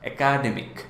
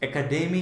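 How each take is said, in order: First: The stress falls on the second syllable. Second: The stress falls on the third syllable. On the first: The speaker calls it wrong. "আমরা এরকম করেই বলি তো" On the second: The speaker calls it right. "ডেমিক, ওইটাতে stretch হবে"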